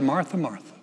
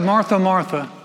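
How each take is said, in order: First: Said in the usual way. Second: A firm double call that means trouble; Jesus calling Martha twice, louder; louder, higher calling. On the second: Retold or imitated. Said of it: "He said".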